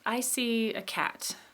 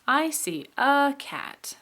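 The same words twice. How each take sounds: First: The word a has a short reduced vowel. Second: The word a has a lengthened full vowel. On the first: "there's the schwa in a cat" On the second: "sometimes we do lengthen and we say"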